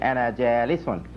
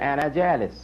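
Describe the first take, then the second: First: The last word ends with a final -un. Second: The last word ends without the final -un. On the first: The speaker calls it right. "better pronunciation" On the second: The speaker calls it wrong. "He could have said ana jalis"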